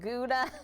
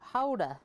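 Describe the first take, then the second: First: It starts with a hard G sound. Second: It starts with a rasping sound from the throat. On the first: The speaker calls it wrong. "Americans can't do that sound well, so they pronounced it Gouda" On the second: The speaker calls it right. "The back of the throat"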